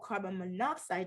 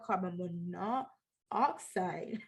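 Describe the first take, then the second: First: The two o sounds merge into one syllable. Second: The two o sounds are said separately. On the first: The speaker calls it right. "which we call carbon monoxide" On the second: The speaker calls it wrong. "not carbon monoxide"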